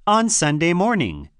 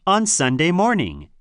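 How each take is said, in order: Both takes have the same delivery.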